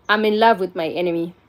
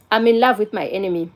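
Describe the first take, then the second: No difference in how they are said.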